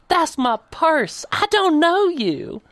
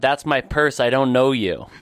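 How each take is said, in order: First: It is said with vigor, like an alarmed Southern lady. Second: It is said flatly, with little energy. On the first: The speaker calls it right. "say it with vigor. I feel like I'm picturing like an accosted Southern belle" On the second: The speaker calls it wrong.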